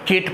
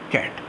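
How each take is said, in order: First: The vowel is a mid 'eh'. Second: The vowel is a flat front 'a'. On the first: The speaker calls it wrong. "केट पढ़ सकते हैं" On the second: The speaker calls it right. "सही कैसे होगा?"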